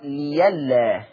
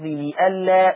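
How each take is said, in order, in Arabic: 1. يحل صوت الياء محل همزة القطع. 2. توجد همزة قطع في الوسط. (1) "يقرأ ليلا" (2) "ولفظ لئلا"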